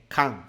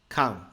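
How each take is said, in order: No difference in how they are said.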